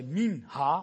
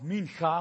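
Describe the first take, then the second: First: "minha" with a plain h; soft H pronunciation. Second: "mincha" with a throaty Dutch ch; guttural CH pronunciation. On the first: Preacher giving the Hebrew word, "minha" with plain h. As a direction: say "minha", second syllable starting on an airy h. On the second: Preacher offering the other variant, "mincha" with throaty ch. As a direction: say "mincha", second syllable starting on a scraped ch. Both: Shown as a demonstration. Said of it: "hoe je het ook uitspreekt".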